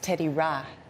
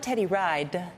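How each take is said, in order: First: The surname ends without the d sound. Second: The surname ends with a clear d sound. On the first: The speaker calls it right. "it's Teddy Ra, because that's how you say it in Liberia" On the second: The speaker calls it wrong. "it's not Teddy Ride"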